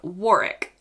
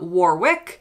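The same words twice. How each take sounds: First: It is said the local British way. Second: It is said the way foreigners often say it. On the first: The speaker calls it right. "places like Warwick" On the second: The speaker calls it wrong. "not Warwick"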